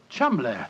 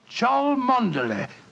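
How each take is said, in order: First: The name is said in a short, clipped form. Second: The name is sounded out syllable by syllable. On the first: "in no way pronounced the way it is spelt"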